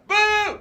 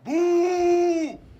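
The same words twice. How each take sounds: First: The boo is high and thin. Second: The boo is deep and low.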